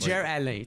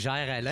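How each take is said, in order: First: The name is said in a partly anglicized way. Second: The name is said in a very French way. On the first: "le seul qui dit bien mon nom, c'est Mike Ward" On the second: "si tu le dis de façon vraiment euh, très française"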